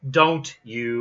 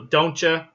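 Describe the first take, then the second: First: The two words are kept separate, without ch. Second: The t and y merge into a ch sound. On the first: "You're going to separate those words" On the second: "We often make the ch sound"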